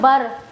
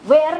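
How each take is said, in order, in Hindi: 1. यह 'b' ध्वनि से शुरू होता है। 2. इसे लंबे 'air' स्वर के साथ बोला जाता है। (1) "नॉट बर" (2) "वेयर नहीं बोलना है"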